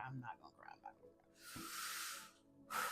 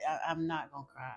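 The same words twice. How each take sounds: First: Much softer, fading to almost nothing; trailing off as tears well up; fighting tears. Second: Said in the usual way. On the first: Real, not acted. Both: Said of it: "I'm not gonna get emotional".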